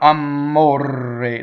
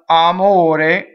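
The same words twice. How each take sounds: First: The M and R are held long, doubled. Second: The M and R are short, single consonants. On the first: The speaker calls it wrong. "Somebody will double the M and double the R" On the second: The speaker calls it right. "single M, single R, closed E"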